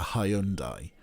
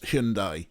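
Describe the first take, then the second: First: It is said the British way. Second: It is said the American way. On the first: The speaker calls it wrong. "whereas we call it a Hyundai" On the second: The speaker calls it right. "I think you pronounce Hyundai properly"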